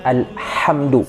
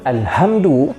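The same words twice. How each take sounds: First: The h is made deep in the throat. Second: The h is a light, plain breath. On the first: It means praise. The speaker calls it right. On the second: It refers to something lifeless. The speaker calls it wrong.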